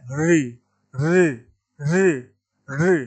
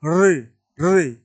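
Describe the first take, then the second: First: री sounded singly with curled-back tongue; retroflex demonstration. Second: Slow, drawn-out री; retroflex demonstration. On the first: Teacher showing the mūrdhā sound, retroflex री. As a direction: roll into each री from the roof of the mouth. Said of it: "वो री मूर्धा वाला है". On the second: Teacher showing the correct sound against र, slow retroflex री. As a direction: stretch each री with the tongue curled back. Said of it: "इस तरह का जो उच्चारण होता है". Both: Shown as a demonstration.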